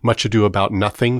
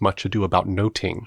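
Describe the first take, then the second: First: The title is said in modern English pronunciation. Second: The title is said in older English pronunciation.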